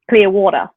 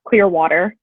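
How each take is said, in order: First: It is said in an Australian accent. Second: It is said in a plain English accent. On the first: "if you say it in Australian" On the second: "like in English"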